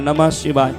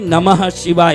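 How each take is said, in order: First: The words are said with a joined consonant. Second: The words are said without a joined consonant. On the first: This is how the mantra is written. The speaker calls it wrong. "लिखते समय आएगा नमः शिवाय, लिखते समय हलंत आएगा" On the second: This is how the mantra is spoken aloud. The speaker calls it right. "बोलते समय नमः शिवाय"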